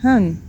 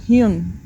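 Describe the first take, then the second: First: The syllable is said like 'han'. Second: The syllable is said like 'hyun'. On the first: The speaker calls it right. "sino como Han" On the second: The speaker calls it wrong. "no se pronuncia como Hyun"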